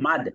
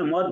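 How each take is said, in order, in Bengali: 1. স্বরধ্বনিটি লম্বা খোলা 'aa'। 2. স্বরধ্বনিটি ছোট গোলাকার 'o'। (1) "এটা হচ্ছে মাদ" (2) "মদ শব্দটা আসলে মদ না"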